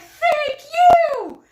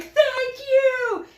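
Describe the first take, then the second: First: Very high, very loud squeal of thanks; volunteer squealing thanks at a passing runner. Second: The runner's higher, louder thanks in passing; thank you. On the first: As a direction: squeal it back at him, thrilled. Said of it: "And I'm like". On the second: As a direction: voice his thanks as he runs by. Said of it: "And he's like". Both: Retold or imitated.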